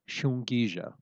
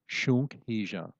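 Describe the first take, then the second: First: The two parts run together as one word. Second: The two parts are said as separate words. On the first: "pronounced as if it's connected" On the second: "pronounced and you will see it written separately from the noun"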